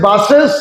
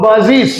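First: বাসেস ending in "-ses", rising; old "-es" ending. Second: বাজিস ending in "-ziz"; new "-iz" ending. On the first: Teacher recalling the earlier way, বাসেস with "-ses". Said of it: "আগে বলেছি". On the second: Teacher showing the corrected way, বাজিস with "-ziz". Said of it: "এখন বলবো". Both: Shown as a demonstration.

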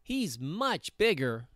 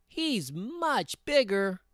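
First: Lightly voiced medium billy goat; not-so-small voice. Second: High, drawn-out little goat; very small voice. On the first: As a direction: middle goat, slightly high. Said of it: "his voice was not so small". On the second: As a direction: stretch it out in a tiny high voice. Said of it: "in his very small voice". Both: A narrator's reading.

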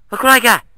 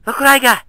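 No difference in how they are said.

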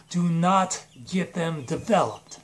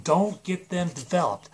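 First: Slow, separated stress on "not"; emphatic warning. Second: Said in the usual way. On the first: Acted. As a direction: stretch out "Do not" as a firm warning.

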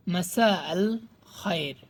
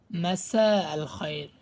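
No difference in how they are said.

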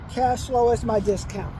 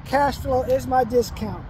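No difference in how they are said.

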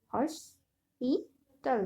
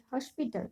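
First: hospital very slowly in three beats, হস, পি, টাল; syllable by syllable. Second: Said in the usual way. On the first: Shown as a demonstration. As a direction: split hospital into হস - পি - টাল with pauses. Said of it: "এখানে তিনটি syllable আছে". (Hospital ধীরে তিন ভাগে ভেঙে: হস, পি, টাল) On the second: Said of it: "কয়টি করে সিলেবল আছে".

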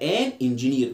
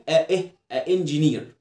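First: "ان انجينير" with the n linking into the vowel; smoother linked article. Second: "ا انجينير" with a break between the two vowels; choppy wrong article. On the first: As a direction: say "ان" with a clear n, joined to "انجينير". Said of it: "كده اشيك". (نطق "ان انجينير" موصول بالنون) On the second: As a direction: say "ا" as a separate short vowel before "انجينير". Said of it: "عشان ما ينفعش اقول". (نطق "ا انجينير" متقطّع بين الصوتين) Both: Shown as a demonstration.

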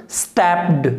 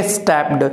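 First: स्टैप्ड with an e vowel and a final t sound; correct stepped. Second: स्टैप्ड with an open a vowel and a d ending; the wrong way, स्टैप्ड said as stapd; wrong stepped. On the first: Teacher modelling the right स्टैप्ड for students, careful pronunciation. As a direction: say स्टैप्ड as stept, ending in a clean t. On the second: Teacher showing students the mistaken स्टैप्ड, contrasting pronunciation. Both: Shown as a demonstration. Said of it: "not a स्टैप्ड".

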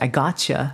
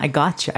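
First: Said in the usual way. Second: Rising, cocky I gotcha; playful challenge accepted. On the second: Real, not acted. Streamer accepting chat's challenge, cocky. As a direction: toss it back like accepting a dare. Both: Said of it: "if you wanna challenge me".

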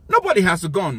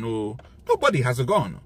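First: Louder, stressed Nobody; emphatic. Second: Said in the usual way. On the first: Real, not acted. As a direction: punch Nobody loudly. Ranting about division.

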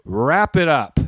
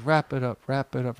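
First: Drawn-out, firm heckle; retold heckle. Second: Soft, fading echo of oneself; hushed replay of own words; voice echoing in memory. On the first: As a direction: call out a firm, deliberate interjection. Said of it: "I leaned forward, and I just said". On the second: Retold or imitated. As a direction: repeat it quieter, like an echo dying away. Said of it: "I heard my voice like".

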